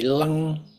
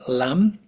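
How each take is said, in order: First: The syllable ends with a nasal ng sound. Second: The syllable ends with a plain m sound. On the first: "this pronunciation creates more of a nasalized vibration in the skull" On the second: "what we tend to see"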